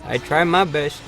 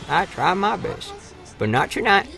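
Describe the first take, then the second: First: Said in the usual way. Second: Slow, soft mock lament; mock mopey. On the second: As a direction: sigh it out in playful self-pity.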